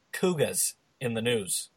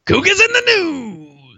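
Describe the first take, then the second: First: Put-on slow, soft announcement in Boston accent; bad Boston accent. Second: High, drawn-out echo of a title; hammed-up segment announcer. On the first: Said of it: "bad Boston accents". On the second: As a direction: stretch it out high like a jingle.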